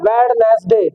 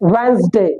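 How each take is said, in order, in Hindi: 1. इसमें लिखा हर शब्दांश साफ़ बोला जाता है। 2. यह छोटे, स्वाभाविक रूप में बोला जाता है। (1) "लेकिन हम पढ़ते क्या है?" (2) "इसकी करेक्ट प्रोनाउंसिएशन क्या होगी?"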